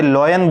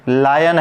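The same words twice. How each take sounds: First: लॉयन with a rounded 'oy' vowel; wrong reading of lion. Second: लायन with an open 'aay' vowel; correct reading of lion. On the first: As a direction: say लॉयन as 'loy-an'. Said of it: "ये लॉयन नहीं है". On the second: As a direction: say लायन as 'laa-yan'. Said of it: "pronunciation होता है आय". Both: Shown as a demonstration.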